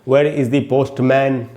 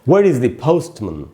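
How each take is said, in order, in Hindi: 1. आखिरी अक्षर में पूरा 'man' वाला स्वर है। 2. आखिरी अक्षर में हल्का, कमज़ोर स्वर है। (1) "ना कि वेयर इज द पोस्टमैन, ऐसे नहीं पढ़ना है हमको" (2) "इस प्रकार से आपको पढ़ना चाहिए"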